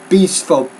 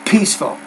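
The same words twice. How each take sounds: First: The P has only a weak puff of air. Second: The P has a strong puff of air. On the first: The speaker calls it wrong. "The P, the P consonant sound, you're not pronouncing that. You're saying peaceful" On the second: The speaker calls it right. "but it's peaceful. Think of it like this. Watch this"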